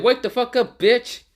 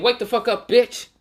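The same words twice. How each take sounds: First: High, loud furious shout, ending on a rise; angry yell. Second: High, loud furious shout; angry yell. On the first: Naruto yelling at Gaara after smacking him, high and loud. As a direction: scream him awake again. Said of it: "so hard that he said". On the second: Naruto yelling at Gaara to wake him up, high and loud. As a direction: scream him awake. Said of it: "waking him up and saying". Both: Acted.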